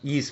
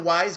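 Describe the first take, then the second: First: The name sounds like the word 'ease'. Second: The name sounds like the word 'wise'. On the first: The speaker calls it right. "Derek would yell at me if I mispronounced it again" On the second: The speaker calls it wrong. "As long as you don't call it wise"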